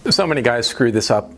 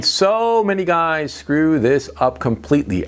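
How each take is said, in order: First: Said in the usual way. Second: "so" drawn out and pitched up for emphasis; stress on SO. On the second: Real, not acted. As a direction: lean long and hard on "so". Repeats the line for emphasis.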